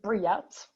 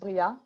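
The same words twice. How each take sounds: First: The name is said with an American pronunciation. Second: The name is said with a French pronunciation.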